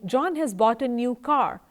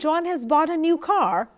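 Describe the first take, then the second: First: It is said as a plain statement. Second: It is said as a surprised question. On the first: It simply gives information. "Now this seems like an information" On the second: The speaker asks whether the news is true. "I am being surprised and I am trying of asking"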